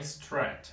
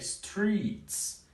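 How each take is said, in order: First: The vowel is short and clipped. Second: The vowel is long and drawn out. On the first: The speaker calls it wrong. "não é strat" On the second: The speaker calls it right. "sempre tem que alongar o som"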